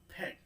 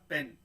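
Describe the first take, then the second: First: The p has a puff of air. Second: The p has no puff of air. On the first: The speaker calls it right. "हा इसमें गिरता हुआ है" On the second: The speaker calls it wrong. "ऐसे नहीं"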